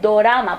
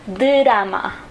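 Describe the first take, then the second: First: A clear o vowel follows the d. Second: A short reduced vowel follows the d. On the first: The speaker calls it wrong. "no es dorama, por favor, dorama no" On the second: The speaker calls it right. "recuerda d con esta e, drama"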